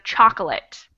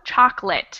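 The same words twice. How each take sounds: First: The middle vowel is kept, giving three syllables. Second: The middle vowel is dropped, giving two syllables. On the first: The speaker calls it wrong. "instead of chocolate" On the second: The speaker calls it right. "We do not say that middle O"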